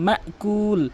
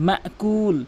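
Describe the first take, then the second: The two takes are said the same way.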